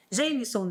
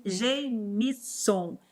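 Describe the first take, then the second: First: Said in the usual way. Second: Sounding out "Gemison" slowly, unsure of the stress; careful name try. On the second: Real, not acted. Teacher slowly sounding out a student's unfamiliar name, tentative. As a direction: feel your way through "Gemison" syllable by syllable. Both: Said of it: "deve ser assim que se pronuncia o seu nome".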